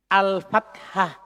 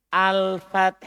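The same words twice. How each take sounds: First: "Al-fathah" slowly, with a clear final -hah syllable. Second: "Al-fath" closed on a breath of h, no -ah; al-fath without ta. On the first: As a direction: sound out every syllable of "Al-fathah" to the end. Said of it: "pakai ta". (ucapkan "Al-fathah" pelan dengan akhiran -hah) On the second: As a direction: end "Al-fath" without a final vowel. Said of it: "Tidak pakai". (ucapkan "Al-fath" tanpa akhiran ta) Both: Shown as a demonstration.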